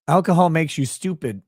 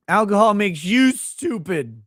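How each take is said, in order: First: Said in the usual way. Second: "Alcohol makes you stupid" said slower and louder, mock offended; mock indignant repeat.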